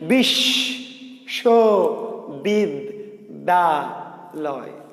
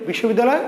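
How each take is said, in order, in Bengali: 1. শব্দটি পাঁচটি আলাদা অক্ষরে ভাগ করে বলা হচ্ছে। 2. শব্দটি এক টানে বলা হচ্ছে। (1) "পাঁচটা" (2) "আমি যদি একবারে বলি"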